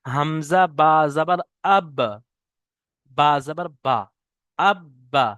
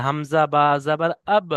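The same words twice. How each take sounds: First: Slow Quran-reading drill ending in a doubled আব্বা; slow spelling drill. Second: Said in the usual way. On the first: Shown as a demonstration. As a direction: spell out হামজা বা জাবার আব slowly, then join into আব্বা with doubled ব. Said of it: "যেমন দেখেন". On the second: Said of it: "এরকম সাকিন হয়ে উচ্চারণ হচ্ছে".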